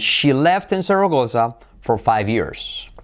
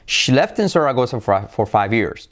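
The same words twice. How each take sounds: First: The sentence is spoken slowly and carefully. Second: The sentence is spoken at normal speed.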